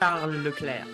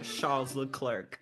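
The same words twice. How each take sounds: First: The S and the final C are silent. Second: The S and the final C are pronounced. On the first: The speaker calls it right. "The S and the C are fucking silent" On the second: The speaker calls it wrong. "Not Charles Leclerc"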